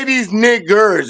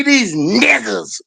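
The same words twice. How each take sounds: First: Final word ending in a hard R. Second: Slow, stretched-out imitation, no hard R; with conviction. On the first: Shown as a demonstration. Showing the version he didn't say, hard E-R ending. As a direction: hit the hard E-R at the end of the last word. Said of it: "the hard E R. He didn't say that one". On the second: Correcting to how he really said it, slow with conviction. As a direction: draw the last word out with conviction. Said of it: "He didn't say that one".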